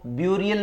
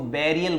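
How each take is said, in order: First: The first syllable sounds like 'byoo'. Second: The first syllable sounds like 'beh'. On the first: The speaker calls it wrong. "इसको ब्यूरियल नहीं बोलते" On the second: The speaker calls it right. "इसको बेरियल बोलते हैं"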